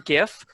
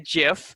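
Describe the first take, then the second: First: The word begins with a hard G sound. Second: The word begins with a soft J sound. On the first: "I prefer GIF" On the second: "some people say GIF, uh, uh, like like the peanut butter"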